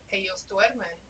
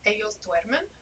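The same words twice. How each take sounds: First: It is said with statement intonation. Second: It is said with question intonation. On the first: The speaker states that they are sleeping. "is the answer" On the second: The speaker asks whether they are sleeping. "becomes a question"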